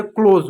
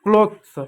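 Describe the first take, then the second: First: क्लोज said like close, with a z and no th; क्लोज said the right way; correct pronunciation. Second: क्लोथ्स with a clear th and final s, the wrong way; wrong pronunciation. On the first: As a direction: give the right form क्लोज. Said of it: "क्लोज होता है". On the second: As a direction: say क्लोथ्स as the common mistake. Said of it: "क्लोथ्स नहीं होती है". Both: Shown as a demonstration.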